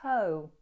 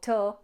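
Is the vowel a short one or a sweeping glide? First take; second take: sweeping glide; short. First: The vowel is a long sweeping glide. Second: The vowel is short and clipped. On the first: The speaker calls it right. "let's have a nice sweeping O in toe" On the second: The speaker calls it wrong. "Not to"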